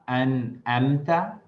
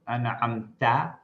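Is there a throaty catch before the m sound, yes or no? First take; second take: no; yes. First: A plain vowel comes before the m. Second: A throaty ain sound comes before the m. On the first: The speaker calls it wrong. "as opposed to um, saying" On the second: The speaker calls it right. "So that's an ain"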